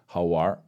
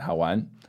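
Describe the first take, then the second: First: The word ends in an r-colored sound. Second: The word ends in a plain n sound. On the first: It is more colloquial and chilled. "I just prefer to say Haowar most of the time" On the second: It is very slightly more formal. "Haowan would be, very slightly more formal"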